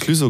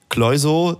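First: The first vowel is a rounded ü sound. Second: The first vowel is an oy-like diphthong. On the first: The speaker calls it right. "Du hast wenigstens Klüso gesagt" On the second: The speaker calls it wrong. "Es gibt auch Leute, die sagen"

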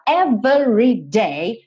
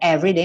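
First: It is said emphatically, each syllable beaten out. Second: It is said plainly, in normal rhythm.

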